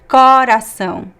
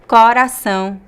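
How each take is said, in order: First: The first vowel is an open O. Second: The same.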